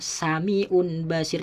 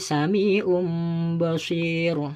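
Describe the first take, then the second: First: The sound before the b is an n. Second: The sound before the b is an m. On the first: The speaker calls it wrong. "Jadi tidak boleh dibaca sami'un basir" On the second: The speaker calls it right. "berbunyi mim sukun karena bertemu dengan ba"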